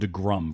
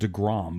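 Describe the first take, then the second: First: The second syllable has an 'uh' vowel. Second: The second syllable has an open 'o' vowel. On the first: This is how the show's hosts say the name. The speaker calls it wrong. "you guys call him DeGrum" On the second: This is how most people say the name. The speaker calls it right. "everyone else calls him DeGrom"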